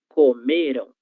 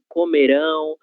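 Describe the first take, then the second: First: The stress is on the middle syllable. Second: The stress is on the last syllable. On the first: The action happened in the past. "têm como sílaba mais forte a sílaba anterior, que nesse caso é o me" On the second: The action will happen in the future. "a sílaba mais forte dele será esse ão"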